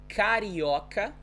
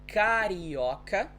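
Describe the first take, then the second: Both takes have the same delivery.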